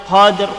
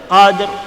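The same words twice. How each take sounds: No difference in how they are said.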